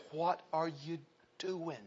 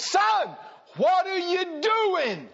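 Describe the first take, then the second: First: Soft, slow, deliberate question; hushed, measured pastoral probe; quiet confrontation. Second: High, drawn-out shouted demand; loud acted confrontation, slow and insistent; exasperated shout. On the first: Retold or imitated. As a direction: drop right down and ask it slowly. Same question repeated quietly. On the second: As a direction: call him out, stretching every word. Retold pastor confronts young man.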